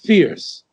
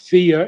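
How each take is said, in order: First: The word is said as one syllable. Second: The word is stretched into two syllables. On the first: The speaker calls it right. "It's one. It's fierce" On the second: The speaker calls it wrong. "It's not fear. It's not two syllables"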